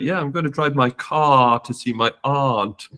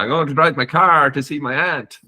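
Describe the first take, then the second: First: It is said in a British accent. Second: It is said in an Irish accent.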